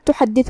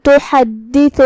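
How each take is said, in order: First: Said in the usual way. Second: تحدث in measured tajweed, doubled d held; recited demonstration. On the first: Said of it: "تو ہم یہ حکم کو ایسے". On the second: Shown as a demonstration. Teacher showing the word after یومئذ, تحدث in measured recitation. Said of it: "تو ہم یہ حکم کو ایسے ادا کریں گے".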